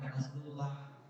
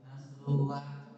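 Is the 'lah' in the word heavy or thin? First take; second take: thin; heavy. First: The lah sounds thin and light, like la. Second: The lah sounds heavy and dark, like lo. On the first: The speaker calls it wrong. "bukan Nasrullah" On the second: The speaker calls it right. "Nasrullah itu dibacanya tafkhim"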